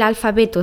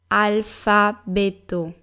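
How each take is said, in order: First: The word is said at normal speed. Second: The word is said slowly.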